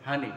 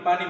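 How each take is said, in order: First: The word begins with an h sound. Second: The word begins with a p sound. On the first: This is how people of another region say it. "তারা পানিরে বলে কি হানি" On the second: This is how we say it. "আমরা ... পানি বলি"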